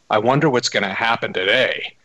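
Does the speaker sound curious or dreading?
dreading. It sounds anxious and full of dread. The day is feared as something bad. The speaker calls it wrong. "And I don't say it like, oh my God"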